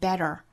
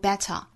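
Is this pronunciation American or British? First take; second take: American; British. First: American accent, with the t flapped. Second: British accent, with a clear t sound. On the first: "美音会读成 better" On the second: "英音读成 better"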